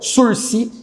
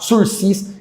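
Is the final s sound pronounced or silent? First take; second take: silent; pronounced. First: The final s sound is silent. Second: The final s sound is pronounced. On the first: The speaker calls it right. "a gente não pronuncia o segundo S" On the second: The speaker calls it wrong. "não vai falar sursis, que você vai passar vergonha"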